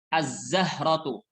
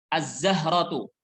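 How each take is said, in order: No difference in how they are said.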